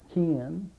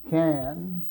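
First: The word is said with a short i vowel. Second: The word has its standard a vowel.

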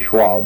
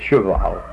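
First: The word is said in a casual, clipped form. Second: The word is said in its full standard form. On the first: This is how the speaker himself says it. "I'd say Schwal" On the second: This is the proper form of the word. "but it's Cheval"

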